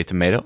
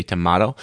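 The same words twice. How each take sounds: First: "tomato" said tuh-MAY-toh; American pronunciation. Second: "tomato" said tuh-MAH-toh; alternative pronunciation. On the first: Doctor joking on pronunciation, "tomato" said tuh-MAY-toh. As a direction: say "tomato" with an ay in the middle. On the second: Doctor joking on pronunciation, "tomato" said tuh-MAH-toh. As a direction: say "tomato" with an open ah in the middle. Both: Shown as a demonstration. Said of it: "depending how you want to say it".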